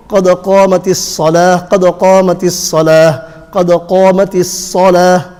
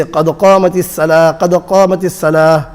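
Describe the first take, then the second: First: Heavy rounded s in الصلاة, like "solah"; full-mouth sad. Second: Thin light s in الصلاة, quickly; seen for sad. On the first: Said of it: "sad needs to come out". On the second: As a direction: say الصلاة as empty-mouth "salah". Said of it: "which is wrong". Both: Shown as a demonstration.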